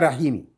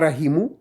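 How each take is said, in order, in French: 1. Le mot finit par une voyelle i ajoutée. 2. Le mot finit par une voyelle u ajoutée. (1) "On ne dit pas rahimi" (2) "On ne dit pas rahimu"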